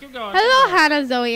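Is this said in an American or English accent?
English. It is said in a put-on English accent. "feel free to read in an English accent"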